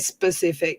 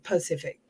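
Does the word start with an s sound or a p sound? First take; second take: s sound; p sound. First: The word begins with an s sound. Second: The word begins with a p sound. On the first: The speaker calls it right. "he would never say specific" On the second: The speaker calls it wrong. "He'd say Pacific"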